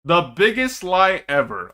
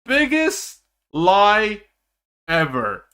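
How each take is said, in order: First: Said in the usual way. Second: Biggest lie stretched slowly, each word weighted; drawn-out emphasis. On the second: Shown as a demonstration. Streamer mocking a promo photo, stretching Biggest lie slowly. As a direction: drag out Biggest lie to hammer it home.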